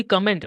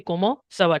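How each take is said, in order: First: "comment" said as English, T sounded; the wrong way, English-style "comment". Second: "comment" with silent T, "komo"; French "comment", no final T. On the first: Tutor showing the student the wrong English-style reading. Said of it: "It won't be comment". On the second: Tutor showing the student the right French sound. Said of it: "T is silent at the end". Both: Shown as a demonstration.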